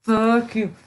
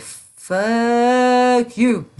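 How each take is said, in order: First: A lighter second "Fuck you", less loud; a casual repeat of "Fuck you"; milder retold retort. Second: Loud, high snapped retort; a sharp, raised "Fuck you"; retold angry retort. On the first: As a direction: toss it off half as hard. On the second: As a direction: fling it back at them hard. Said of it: "I was like".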